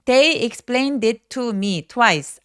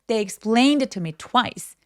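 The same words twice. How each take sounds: First: Every word gets roughly equal stress. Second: Only explained and twice are stressed; others weak. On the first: The speaker calls it wrong. "아니고" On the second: The speaker calls it right. "이 두 단어의 강세 외에 나머지는 힘을 쫙 빼주셔야 돼요"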